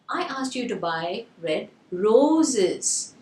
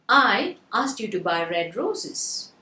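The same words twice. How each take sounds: First: The word "roses" is stressed. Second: The word "I" is stressed. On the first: "the stress is on the roses" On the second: "So the first word I was stressed"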